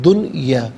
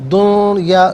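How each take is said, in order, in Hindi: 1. n की आवाज़ साफ़ बोली जाती है। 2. n की आवाज़ छिपी हुई और नासिक्य है। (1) "नून साकिन को यहाँ इजहार के साथ पढ़ेंगे" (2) "दुनिया नहीं, गलत है"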